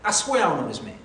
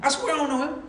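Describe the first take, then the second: First: Firm denial at an everyday pitch; sworn denial. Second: High-pitched, protesting oath; insistent sworn denial. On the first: Peter denying Jesus before the bystanders, sworn denial. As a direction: swear it plainly and firmly. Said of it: "he denied with an oath". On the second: Peter pressed about Jesus, insistent sworn denial. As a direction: swear it higher, pleading to be believed. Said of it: "With an oath". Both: Acted.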